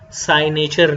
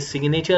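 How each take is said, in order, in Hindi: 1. g मौन है और पहला स्वर दीर्घ है। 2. g की ध्वनि n से पहले उच्चारित होती है। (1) "साइनेचर नहीं होगा" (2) "ये सिग्नेचर होगा"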